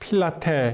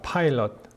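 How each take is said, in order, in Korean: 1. 음절이 세 개이고, 'teh' 소리로 끝나요. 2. 음절이 두 개이고, 'pilot'처럼 들려요. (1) "필라테 이렇게 해야 됩니까?" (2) "빌라도의 발음은요. 파일럿입니다"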